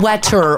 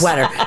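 First: The middle consonant is a t sound. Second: The middle consonant is a d sound. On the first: The speaker calls it wrong. "Not Wetter, W-E-D-D" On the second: The speaker calls it right. "Yes, Wetter"

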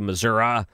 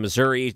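First: The word is pronounced in a rural local way. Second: The word is pronounced the ordinary, standard way. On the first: "they'd say Missouri. You know, look, it's very rural" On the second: "instead of saying Missouri"

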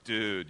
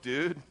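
First: It sounds let down and disappointed. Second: It sounds like a questioning challenge.

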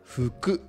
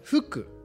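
First: The pitch goes down, then rises. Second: The pitch goes up, then falls.

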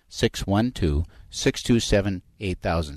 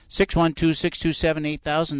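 First: It is said slowly. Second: It is said at a normal pace.

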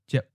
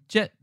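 First: The syllable carries the fourth tone. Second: The syllable carries the eighth tone. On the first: "to jet" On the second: "from jet"

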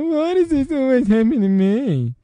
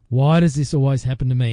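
First: The question is asked in a self-pitying voice. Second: The question is asked in a plain voice.

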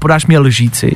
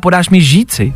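First: The word starts with an L sound before ž. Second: The word starts directly with ž, no L. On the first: "nikdo z nás neříká podáš mi lžíci" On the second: "Spousty z nás říká podáš mi žíci"

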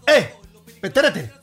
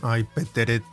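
First: It is said sharply, as if calling out alarm. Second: It is said in a soft, playful little tone.

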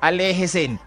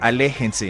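First: The n sound comes at the end. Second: The n sound comes in the middle. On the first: The speaker calls it wrong. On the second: The speaker calls it right. "noten que la N es en la mitad"

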